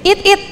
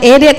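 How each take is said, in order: First: The two words are said separately, letter by letter. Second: The two words run together into one word. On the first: The speaker calls it wrong. "mana ada it it? Nggak ada it it" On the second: The speaker calls it right. "dibilang edit nggak ngerti"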